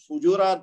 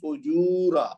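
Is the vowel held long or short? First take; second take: short; long. First: The vowel is held for one short beat. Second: The vowel is held for two beats. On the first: The speaker calls it wrong. "इसको फुजूरा पढ़ना गलत है" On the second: The speaker calls it right. "ये वाला है फुजूरा ... दो हरकत पढ़ना था"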